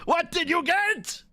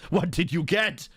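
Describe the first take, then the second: First: Much higher, eager repeat; excited. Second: Said in the usual way. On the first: Shown as a demonstration. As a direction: ask again like a thrilled kid.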